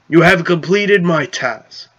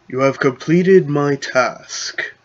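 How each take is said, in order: First: It is said in his normal voice. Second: It is said in a wise Saradomin voice.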